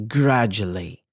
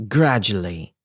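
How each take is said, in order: Both takes have the same delivery.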